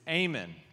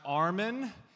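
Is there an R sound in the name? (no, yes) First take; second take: no; yes. First: The name is said without an R sound. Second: The name is said with an R sound. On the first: The speaker calls it right. "It's Ayman" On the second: The speaker calls it wrong. "There's no R in the name. It's not Armin"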